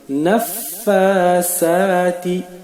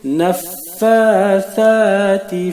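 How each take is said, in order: First: The consonant sounds like a hissed s. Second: The consonant sounds like a soft th. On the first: The speaker calls it wrong. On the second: The speaker calls it right.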